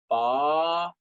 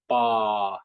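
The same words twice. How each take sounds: First: The long syllable is said with a high tone. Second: The long syllable is said with a regular tone. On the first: "long sounds, high tones" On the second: "long sounds, regular sounds"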